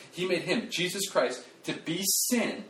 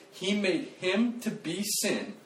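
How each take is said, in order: First: "made" hit, slow and high on "to be sin"; stress on made. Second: "him" stressed, slow and high; slow it down on "him to be sin". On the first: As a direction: spell it out with weight. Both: Shown as a demonstration. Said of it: "Don't miss this".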